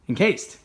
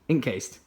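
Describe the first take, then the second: First: It is run together as one word. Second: It is split into two separate words. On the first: It means covered or wrapped up. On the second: It names the ink-based phone case.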